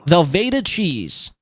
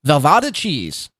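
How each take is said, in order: First: Velveeta with a clear long ee, said slowly; correct pronunciation. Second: Velvada with a flat ah vowel, slowed down; mock wrong pronunciation. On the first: Showing the chat how Velveeta is really said, slowly. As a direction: pronounce Velveeta cheese right, slowly. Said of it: "I do know the word Velveeta". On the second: Copying Chad's botched word, slow Velvada cheese. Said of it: "I can't even say what he's trying to". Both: Shown as a demonstration.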